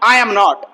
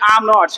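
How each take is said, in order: First: All three words are said fully and separately. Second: The first two words blend into one syllable. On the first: "neutral English" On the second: "मतलब आई एम नॉट नहीं बोलना, बोलेंगे आम नॉट"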